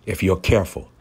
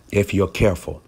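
No difference in how they are said.

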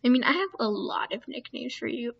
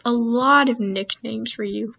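First: Said in the usual way. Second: "lot" drawn out and punched louder; knowing emphasis, stretching "lot"; stress on LOT. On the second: Real, not acted. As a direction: lean slowly and heavily on "lot". Repeats it with more emphasis.

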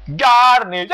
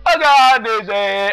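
First: High, loud shout of the name; excited callout. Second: High, loud, slow wail of the name; drawn-out mock lament. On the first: Real, not acted. Gamer calls out a fallen worm, loud excited shout. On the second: Gamer mourns a fallen worm, slow loud mock wail.

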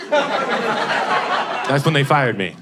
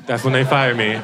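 First: Laughing. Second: Said in the usual way. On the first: Real, not acted. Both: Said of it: "repeated punchline".

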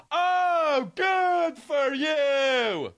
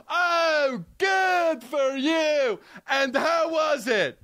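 First: Mock patronizing. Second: High, slow, sugary put-down; mock patronizing. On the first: Mocking a patronizing reply. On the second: Mocking the patronizing line, high and drawn out. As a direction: stretch out the good like talking down to a child. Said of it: "So patronizing".

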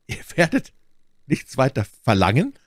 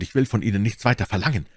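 First: "Ihr werdet nichts weiter verlangen" high, each word weighted, rising at "verlangen"; emphasis on every word. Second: Said in the usual way. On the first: A narrator's reading. Buckingham echoing Felton, "nichts weiter verlangen" astonished, word by word. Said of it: "auf jede Silbe dieser fünf Worte einen besonderen Nachdruck".

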